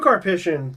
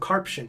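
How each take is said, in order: First: The name is said with all its syllables. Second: The name is said with a syllable dropped. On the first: The speaker calls it right. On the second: The speaker calls it wrong.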